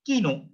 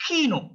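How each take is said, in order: First: "kino" with k softened, no puff of air; unaspirated K. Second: "kino" with strong puff after k; high "kino", k pushed out sharply; sharp aspirated K. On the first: Teacher shows the K to avoid, unaspirated K. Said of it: "not kino". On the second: Teacher shows learners the correct K, sharp K. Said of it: "Kino is a very sharp sound". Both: Shown as a demonstration.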